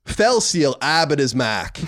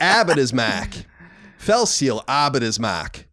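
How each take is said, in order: First: Put-on slow, drawn-out Boston accent, r dropped: "Abbott is Mac". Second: Put-on slow Boston accent with dropped r's in "Abbott is Mac". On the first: Cohost answers a listener request in a slow Boston accent. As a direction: lean into the Boston accent slowly. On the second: Repeating the listener's request in a slow Boston accent. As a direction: drag it out like a Bostonian. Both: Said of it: "pronounce Fell Seal Arbiter's Mark with a Boston accent".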